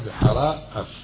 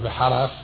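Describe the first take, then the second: First: The two words are kept clearly apart. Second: The two words are merged into one. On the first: The speaker calls it right. "אלא בחרה אף" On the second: The speaker calls it wrong. "כאילו בחריף"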